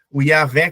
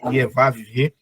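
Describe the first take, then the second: First: The name is said in the usual Portuguese way. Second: The name is said in a Hebrew-style pronunciation. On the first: This is how people here commonly say it. "como a gente chama" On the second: This is the original-language pronunciation. "a pronúncia é, em hebraico é"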